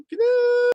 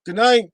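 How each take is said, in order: First: Very high, sing-song Good night; high silly goodnight. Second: Said in the usual way. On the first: Pretend. Playful repeated goodnights. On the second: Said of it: "thanks everybody".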